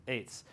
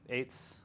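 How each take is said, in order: Both takes have the same delivery.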